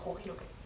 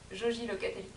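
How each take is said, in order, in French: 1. Le J se prononce comme un 'h' guttural. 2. Le J se prononce comme un 'zh' doux français. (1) "les J se prononcent comme ça" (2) "je disais Joji"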